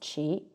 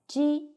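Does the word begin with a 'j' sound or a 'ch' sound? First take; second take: ch; j. First: The word begins with a 'ch' sound. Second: The word begins with a soft 'j' sound. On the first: It means strange. "qi is pronounced as qi" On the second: It means an odd number. "It's read as ji"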